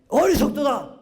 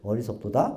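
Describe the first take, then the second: First: It is said in an angry, agitated tone. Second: It is said in a calm, plain tone.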